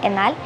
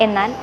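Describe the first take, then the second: The two takes are said the same way.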